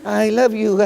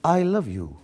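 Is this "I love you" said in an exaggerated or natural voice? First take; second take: exaggerated; natural. First: It is said in an exaggerated, put-on voice. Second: It is said in a plain, natural voice. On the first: This is how impersonators copy the line. The speaker calls it wrong. "जो mimicry करते हैं मेरी" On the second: This is how the line was originally delivered. The speaker calls it right. "मैं करके दिखाता हूँ मैं तुमको यार"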